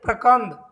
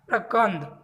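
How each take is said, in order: First: प्रकंद said louder, firmly, with a falling tone; emphatic answer. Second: Said in the usual way. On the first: Shown as a demonstration. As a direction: hammer प्रकंद home for the exam. Answer repeated for memorising. (प्रकंद पर ज़ोर, ऊँची और गिरती आवाज़ में)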